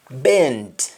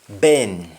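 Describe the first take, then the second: First: BEND with the final D sounded; English-style BEND, full "nd"; English pronunciation. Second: BEN stopping at the N; Jamaican pronunciation. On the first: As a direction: finish BEND on a clear D. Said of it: "ends with N D in English". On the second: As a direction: drop the D, just BEN. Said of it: "You only stop at N". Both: Shown as a demonstration.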